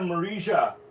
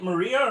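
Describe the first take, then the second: First: The name is said with a J sound. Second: The name is said without a J sound.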